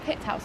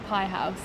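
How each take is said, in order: First: The first word has a short 'i' vowel. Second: The first word has a long 'eye' vowel. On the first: "is it Pitt House or Pie House?" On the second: "is it Pitt House or Pie House?"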